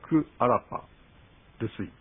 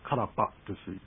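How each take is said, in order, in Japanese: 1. 「ku」と「a」は別々の音節として発音されます。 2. 「ku」と「a」は一つの音節にまとまります。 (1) "本来は" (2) "これがつながりましてカラパというふうになります"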